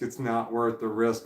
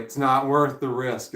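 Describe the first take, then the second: First: Said in the usual way. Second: Louder, slower It's not worth the risk; mock lawyer warning. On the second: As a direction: lay the warning down firmly and slow. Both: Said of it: "The lawyer's just like".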